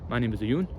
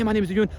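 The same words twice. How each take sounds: First: It is spoken slowly and calmly. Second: It is spoken quickly and hurriedly. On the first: The speaker sounds confident. The speaker calls it right. "You want to just speak slowly" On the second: The speaker sounds needy and nervous. The speaker calls it wrong. "that neediness can be seen"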